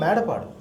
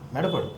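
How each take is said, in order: First: The name is said with long vowels. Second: The name is said with short vowels. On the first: This is the real local name of the station. The speaker calls it right. "అది తెలుగులో మేడపాడు" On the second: This is a misreading taken from the English spelling. The speaker calls it wrong.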